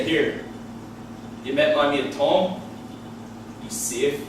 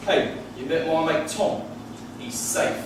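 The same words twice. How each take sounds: First: Low, slow Belfast accent with menace; Belfast threat. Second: Lightly imitated English accent; casual English mate vouching for a friend; easygoing line in a put-on English accent. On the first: Shown as a demonstration. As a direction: dour Belfast vouching that sounds ominous. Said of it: "sounds like I've done a fucking background check". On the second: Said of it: "I have English friends and they'll say".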